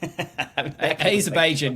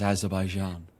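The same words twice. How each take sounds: First: The J is pronounced as a hard sound. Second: The J is pronounced as a soft sound. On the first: The place sounds less nice. "Azerbaijan doesn't sound as nice a place" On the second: The place sounds nicer. "as nice a place as Azerbaijan"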